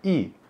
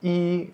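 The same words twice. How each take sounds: First: It is said with a high falling tone. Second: It is said with a high level tone. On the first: It comes before a first-tone syllable. "Bei itu nada satu, jadinya i" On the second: It stands alone, as when counting. "i, nada satu"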